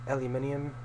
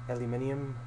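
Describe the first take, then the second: Both takes have the same delivery.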